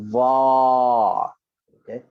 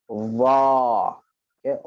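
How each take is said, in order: The two takes are said the same way.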